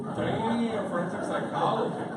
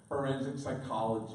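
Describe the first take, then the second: First: Much louder and higher, impressed disbelief; amazed exclamation. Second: Said in the usual way. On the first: Real, not acted. Priest impressed by the daughter's answer, loud amazed repeat. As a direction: repeat it loudly, blown away.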